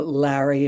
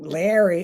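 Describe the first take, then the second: First: Said in the usual way. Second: Queens-accented "Larry"; family vernacular accent. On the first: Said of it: "with the accent". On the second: Shown as a demonstration. Guest showing his family's pronunciation, in Queens accent. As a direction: say "Larry" with a Queens accent, first vowel like "air". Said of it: "in my family vernacular".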